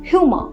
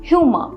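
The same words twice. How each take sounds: Both takes have the same delivery.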